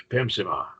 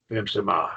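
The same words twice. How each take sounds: First: "Pimsima" repeated as one joined word, no pause inside; run together. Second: "Pimsima" said as one word, no gap between parts; run together. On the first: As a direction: say "Pimsima" again as a single smooth word. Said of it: "there's no space between them". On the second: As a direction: glide "Pimsima" straight through with no space. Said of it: "pronounced like they're one word". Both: Shown as a demonstration.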